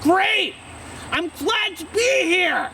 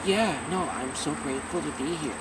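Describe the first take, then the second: First: Very high, drawn-out exclamation; shouty TV-guest enthusiasm. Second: Low, soft, toned-down reply; subdued. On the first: Answering an interviewer on TV, shouty enthusiasm. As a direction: belt it out high like an over-keen guest. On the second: Answering an interviewer without any shouting, subdued. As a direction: drop it low and murmur thanks. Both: Acted. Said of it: "Instead of just like".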